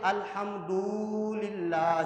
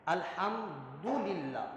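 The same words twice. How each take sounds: First: الحمدللہ with دو stretched, slow; slow mock of a wrong recitation; wrong long du. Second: الحمدللہ very slow, du kept short; soft slow Quranic recitation; correct recitation. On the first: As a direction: imitate the mistaken long du. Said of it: "بعض لوگ ایسے پڑھتے ہیں". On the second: Shown as a demonstration. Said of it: "دو نہیں کر سکتے".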